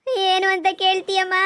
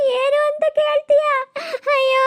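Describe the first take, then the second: First: Said in the usual way. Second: High, loud tearful wail; wailing lament. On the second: Acted. Daughter wails high and loud to her mother about her misery.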